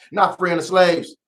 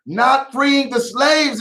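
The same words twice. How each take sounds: First: Said in the usual way. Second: Slow, each word weighted on "Not freeing the slaves"; slow emphatic repeat. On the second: Shown as a demonstration. Host repeating the Harriet Tubman remark slowly for emphasis. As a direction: lean into "slaves" slowly and higher, letting it land.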